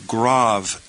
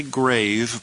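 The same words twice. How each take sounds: First: "grave" said grahv, with an open ah; corrected pronunciation. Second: "grave" with a long A, as in gravestone; mispronunciation to avoid. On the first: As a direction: slowly rhyme "grave" with suave. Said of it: "but rather". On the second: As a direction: say "grave" to rhyme with cave. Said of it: "Don't say grave". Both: Shown as a demonstration.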